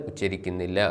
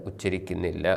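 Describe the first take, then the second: No difference in how they are said.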